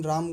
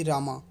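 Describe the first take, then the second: First: राम ending on the m, no vowel after it; final vowel dropped. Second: रामा with an open "aa" after the m; final vowel sounded. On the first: Teacher showing how Hindi speakers say it, राम with silent final vowel. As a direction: say राम as one syllable, closed on m. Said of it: "इसका उच्चारण हम राम ही करते हैं". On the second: Teacher showing what not to say, रामा with final "aa" voiced. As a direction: say रामा as two syllables, ending on a vowel. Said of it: "ना कि रामा". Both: Shown as a demonstration.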